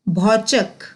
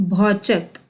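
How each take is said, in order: No difference in how they are said.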